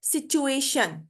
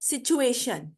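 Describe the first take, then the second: First: The ending is said with an 'sh' sound. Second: The same.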